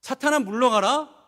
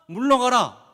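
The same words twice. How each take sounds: First: Mock disbelief. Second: A stern, loud 물러가라 with a falling end; 물러가라 said as a firm falling command. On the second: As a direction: order him away. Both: Shown as a demonstration. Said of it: "에게?".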